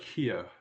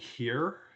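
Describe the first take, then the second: First: The final R is dropped, Australian style. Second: The final R is pronounced, Canadian style.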